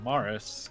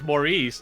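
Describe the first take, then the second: First: The name is given an English pronunciation. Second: The name is given a French pronunciation. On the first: This is the speaker's own, Irish name. "I'm not Maurice though, I'm Morris" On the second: This is the French form of the name. "there's Maurice, that's French"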